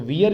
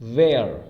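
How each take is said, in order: First: The vowel sounds like the one in 'here'. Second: The vowel sounds like the one in 'hair'. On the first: The speaker calls it wrong. "तो वियर इसका उच्चारण नहीं होता है" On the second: The speaker calls it right. "इसका सही उच्चारण होता है वेयर"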